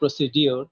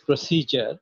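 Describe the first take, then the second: First: The middle is said with a plain 'd' sound. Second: The middle is said with a 'j' sound. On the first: The speaker calls it wrong. "Which is wrong, wrong pronunciation" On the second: The speaker calls it right. "This is প্রসিজার, is never প্রসিডিওর"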